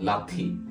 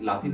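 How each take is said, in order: First: The t sound has a strong puff of breath. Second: The t sound is plain, without a breath. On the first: The speaker calls it right. "না লাথি" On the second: The speaker calls it wrong. "লাতি না"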